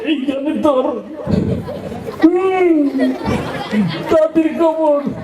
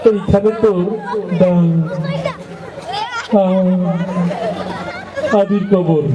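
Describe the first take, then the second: First: The words come out hurried and strained. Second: The words come out halting, with a stammer. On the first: The reciter urgently needs to leave the stage. "ডায়রিয়ার রোগী আর কি" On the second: The reciter stammers. "একটু তোতলা টাইপের কথা বাইরে দিতে সময় লাগে"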